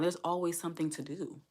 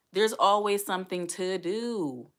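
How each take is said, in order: First: Said in the usual way. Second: Drawn out and louder, each word leaned on; slow emphatic repeat. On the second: Shown as a demonstration. Single mom telling viewers, slow and emphatic. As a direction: repeat it slowly to drive it home.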